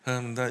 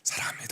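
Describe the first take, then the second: First: It is said flatly, without feeling. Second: It is said warmly, with deep feeling.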